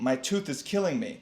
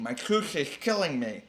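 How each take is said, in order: First: Said in the usual way. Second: "tooth is killing me" said with a slushy lisp. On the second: Shown as a demonstration. Fox with a sore tooth complains to the dentist, "tooth" lisped. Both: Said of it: "I guess he'd be lisping".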